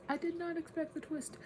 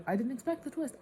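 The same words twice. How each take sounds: First: "did not" stressed, pitched very high; emphatic repeat. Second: High, louder burst of surprise; surprised admission. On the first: Reader insisting on surprise at the twist, "did not" stressed. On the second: Reader reacting to the book's twist, surprised. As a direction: blurt it out, high and loud. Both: Real, not acted.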